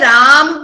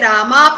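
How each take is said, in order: First: The word ends on the m sound. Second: The word ends on an added a vowel. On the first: "कोई उसे राम पढ़ेगा" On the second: "कोई उसे रामा पढ़ेगा"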